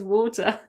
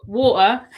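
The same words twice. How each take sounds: First: Said in the usual way. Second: Mock-Cockney "water" with the T dropped, punched louder; Cockney accent. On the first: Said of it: "She says water". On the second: Shown as a demonstration. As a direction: hit "water" as a Cockney would, glottal stop for the T. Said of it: "She's not a Cockney. She doesn't say".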